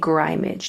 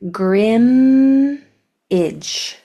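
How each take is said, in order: First: The first vowel is a long i sound. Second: The first vowel is a short i sound. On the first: The speaker calls it wrong. "Now that I would make its long sound" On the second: The speaker calls it right. "let me say it better"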